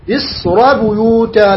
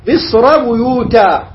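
First: مصر بيوتا recited slowly with a heavy ra; slow recitation. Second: مصر بيوتا recited slowly, the ra flowing into بيوتا; slow recitation. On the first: Teacher reciting the verse to show the heavy ra. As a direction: chant مصر بيوتا slowly, keeping the ra full. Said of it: "لا نقول مصر بيوتا". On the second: Teacher reciting the verse to show the joined reading. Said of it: "عند الوقف". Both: Shown as a demonstration.

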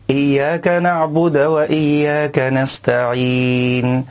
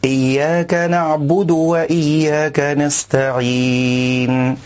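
First: "نعبد" ending on a stopped dal, na'bud with no vowel; the wrong sukun on "نعبد"; silent dal. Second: "نعبد" with a clear u on the dal, na'budu; the correct "نعبد"; dal with damma. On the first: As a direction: cut the dal of "نعبد" dead. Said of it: "سكون الدال في كلمة نعبد". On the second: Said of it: "والصواب ضمها". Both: Shown as a demonstration.

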